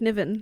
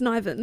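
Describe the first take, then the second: First: The name rhymes with Riven. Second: The name does not rhyme with Riven. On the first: This is how the reader assumed it was said. The speaker calls it wrong. "switched the R and the N, like Niven" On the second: This is the official way to say it. The speaker calls it right. "but then it's Niven"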